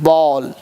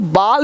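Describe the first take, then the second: First: The vowel is a rounded 'aw' sound. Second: The vowel is an open 'aa' sound. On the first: The speaker calls it right. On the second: The speaker calls it wrong.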